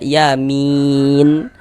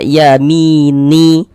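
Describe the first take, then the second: First: The word ends on a silent, vowelless n. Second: The word ends with an added i vowel. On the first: The speaker calls it right. "kita baca" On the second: The speaker calls it wrong. "Jangan dibaca"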